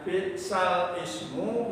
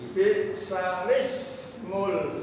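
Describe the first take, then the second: First: The lam stays silent before a glottal stop. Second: The lam takes an i vowel, glottal stop dropped. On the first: This is the form before the transfer rule applies. "yang tadinya" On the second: The hamza's vowel has moved to the letter before it.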